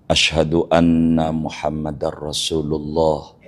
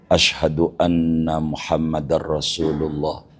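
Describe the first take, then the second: No difference in how they are said.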